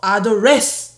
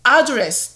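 First: The stress is on the second syllable. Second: The stress is on the first syllable.

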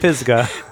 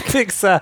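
First: The s sound comes before the g sound. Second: The g sound comes before the s sound. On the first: The speaker calls it right. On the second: The speaker calls it wrong.

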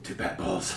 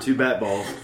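First: It is said in a put-on voice. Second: It is said in a normal voice.

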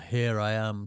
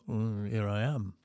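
First: It is said forcefully and boldly. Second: It is said softly and humbly.

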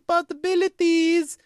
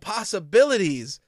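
First: It is said in an exaggerated Russian accent. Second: It is said in a plain, unaccented way. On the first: The speaker calls it wrong. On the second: The speaker calls it right.

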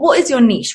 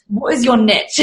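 First: Niche is said in the speaker's own non-American way. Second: Niche is said the way Americans say it.

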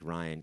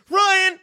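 First: The name is said flatly, without energy. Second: The name is said with lively, exaggerated energy.

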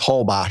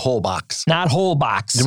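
First: It is said without the l, ending in 'bosh'. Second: It is said as spelled, ending in 'box'. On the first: The speaker calls it right. "it's Hobosh" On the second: The speaker calls it wrong. "Not Holbox. Which is how it's spelled"

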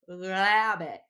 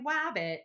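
First: The word begins with a distorted L-like sound. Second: The word begins with a W sound. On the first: "this really distorted L sound" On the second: "they're saying wabbit for rabbit"

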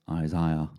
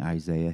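First: The word has a British pronunciation. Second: The word has an American pronunciation. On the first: "he says Isaiah" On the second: "instead of saying Isaiah"

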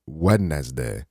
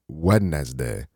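First: The word is said sounding it as spelled. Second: The same.

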